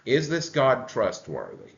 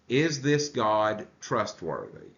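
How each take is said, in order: First: Weight moves to "God", at normal pace; stress on God. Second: Slow, with the weight on "this"; stress on this. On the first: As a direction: hit "God" in the repeated question. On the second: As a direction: lean on "this" and ask slowly. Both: Shown as a demonstration.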